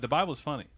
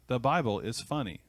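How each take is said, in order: First: It is said quickly, with words run together. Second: It is said slowly, each word clearly separated. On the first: This is how people talk in conversation. "we're talking at a little bit faster" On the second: This is how people sound when reading aloud. "if we were reading"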